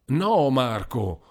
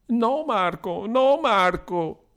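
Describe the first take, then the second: First: Slow pleading, close to crying; pleading, near tears. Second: High slow shrieking pleas, much higher; shrill plea. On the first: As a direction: beg him gently to stop. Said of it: "pregò anche Paolino". (Paolino supplica, quasi in lacrime) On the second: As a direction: cry out begging him to stop. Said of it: "strillò la poveretta". (la poveretta strilla supplicando, acuta e lenta) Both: A narrator's reading.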